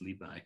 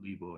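First: The second syllable is pronounced like 'bai'. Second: The second syllable is pronounced like 'bo'. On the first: This is the everyday form used today. "but that's stuck nowadays" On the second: This is the older, polite reading of the name. "The polite way to refer to him was Bo"

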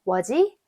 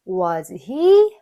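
First: The h sound drops and links to 'was'. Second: The h sound in 'he' is pronounced.

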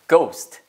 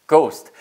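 No difference in how they are said.

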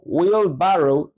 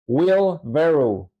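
First: The vowel in 'barrow' sounds like 'ah'. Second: The vowel in 'barrow' sounds like 'eh'. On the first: The speaker calls it wrong. "No se pronuncia como wheelbarrow" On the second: The speaker calls it right. "su pronunciación es más cercana a la E"

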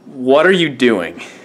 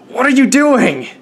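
First: It sounds fairly calm, not anguished. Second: It sounds strongly anguished and pained.

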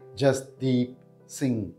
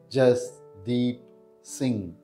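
First: It is said at normal speed. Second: It is said slowly.

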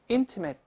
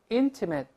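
First: The last syllable is pronounced like 'it'. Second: The same.

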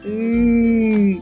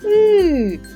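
First: The drawn-out vowel sounds pleased and content. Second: The drawn-out vowel sounds surprised and questioning. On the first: The speaker is happy about something received. "Він радіє ось так. ... Дуже задоволений" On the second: The speaker is puzzled that something is gone. "здивовано питає у нас"

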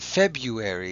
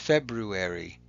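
First: The first r sound is dropped. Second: The first r sound is clearly said. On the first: The speaker calls it wrong. "it's not February" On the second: The speaker calls it right. "it's February. If you say it correctly, you'll be able to spell it correctly too"

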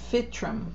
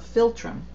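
First: The word is said without an L sound. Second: The word is said with an L sound. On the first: The speaker calls it wrong. "It doesn't have an L" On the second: The speaker calls it right. "Sorry, I didn't see the L there"

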